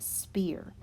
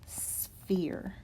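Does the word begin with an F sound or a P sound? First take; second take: P sound; F sound. First: The word begins with a plain P sound. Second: The word begins with an S then F sound. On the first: The speaker calls it wrong. "It is not spear" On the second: The speaker calls it right. "It's pronounced sphere. ... a P H there that sounds like an F"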